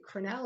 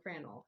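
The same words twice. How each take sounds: First: Crannell as cruh-NELL, weak first vowel; stress on second syllable. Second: Crannell as CRAN-ul, short second syllable; stress on first syllable. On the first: Hearing presenter checking a street name, Crannell stressed on the end. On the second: Hearing presenter offering the other pronunciation, Crannell stressed up front. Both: Shown as a demonstration. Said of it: "Is it Crannell or Crannell?".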